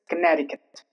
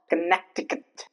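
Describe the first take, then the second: First: The middle C is silent. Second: The middle C is sounded as a K. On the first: The speaker calls it right. "The C is not pronounced" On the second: The speaker calls it wrong. "It's not Connecticut"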